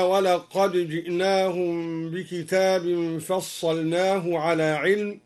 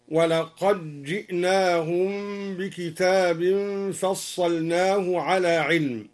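First: Said in the usual way. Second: ولقد جئناهم said "walaqajji'nahum", with a doubled j; dal merged into jim. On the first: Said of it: "قوله تعالى". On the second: Shown as a demonstration. Teacher shows al-Duri's reading, ولقد جئناهم with d merged into j. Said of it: "أدغم الدوري الدال في الجيم هكذا".

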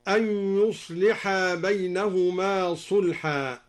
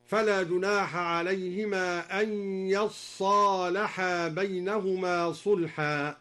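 First: Said in the usual way. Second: Slow chant with "يصالحا" as yaṣṣālaḥā; Duri recitation. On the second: Shown as a demonstration. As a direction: double the ṣād in "يصالحا", a on the yā', long ā after. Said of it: "فأدغمت التاء في الصاد هكذا".

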